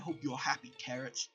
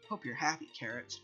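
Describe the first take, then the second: First: It is said in a put-on deeper voice. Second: It is said in the speaker's natural voice. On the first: "deeper Helen Magnus is what I trying trying to do" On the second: "Jack's just gonna have to live with my voice for now"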